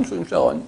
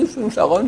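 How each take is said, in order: First: Dit bien plus bas, pour lui-même; voix grave pour soi. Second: Said in the usual way. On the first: Retold or imitated. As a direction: se rabaisser à voix basse et grave. (« charogne » dit très grave, pour soi) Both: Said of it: "lui, il se dit".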